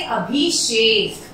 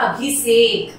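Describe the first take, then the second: First: "अभिषेक" slowly with a clear sh, as abhishek; correct sh sound. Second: "अभिषेक" said with a plain s, as abhisek; wrong s sound. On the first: Teacher models the right word for pupils, slow "अभिषेक" with sh. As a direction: draw out "अभिषेक", sh before the last vowel. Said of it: "इसे हम क्या बोलेंगे सही". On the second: Teacher shows pupils the common slip, "अभिषेक" with plain s. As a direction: say "अभिषेक" with s in place of sh. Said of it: "स का उच्चारण गलत हो रहा है". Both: Shown as a demonstration.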